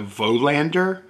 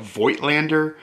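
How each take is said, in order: First: The name is said without the 'igt' sound. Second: The name is said with the 'igt' sound. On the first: This is how the seller said it. "the guy I bought it from called it a Volander" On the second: This is the guessed pronunciation. "I would have guessed it would be a Voigtlander"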